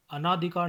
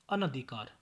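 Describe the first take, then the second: First: अनाधिकार with long ना; mispronunciation. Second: Said in the usual way. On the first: Shown as a demonstration. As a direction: stretch the second vowel of अनाधिकार to aa. (अनाधिकार, लंबा ना) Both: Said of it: "नहीं".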